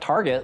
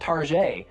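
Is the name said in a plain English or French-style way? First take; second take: plain English; French-style. First: It is said with a plain English pronunciation. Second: It is said with a French-sounding pronunciation. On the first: This is how the store meant its name. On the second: The store is jokingly treated as a fancy boutique.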